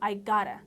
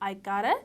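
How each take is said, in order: No difference in how they are said.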